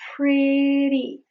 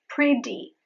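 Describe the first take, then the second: First: The middle T is a quick flap. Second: The middle T is a full, hard T. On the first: The speaker calls it right. "You only flap your palate. That is why it is called the flap T" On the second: The speaker calls it wrong. "it is not pretty"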